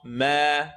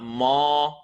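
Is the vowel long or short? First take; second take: long; short. First: The vowel is stretched out long. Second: The vowel is cut short. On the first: The speaker calls it right. "We're going to stretch here" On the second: The speaker calls it wrong. "Not ma"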